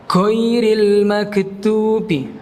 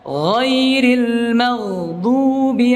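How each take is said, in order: First: The gh is said as a hard g stop. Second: The gh is said as a throaty fricative. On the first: The speaker calls it wrong. "dibaca huruf G" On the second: The speaker calls it right. "Seperti itu"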